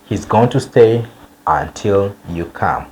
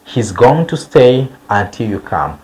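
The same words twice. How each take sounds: The two takes are said the same way.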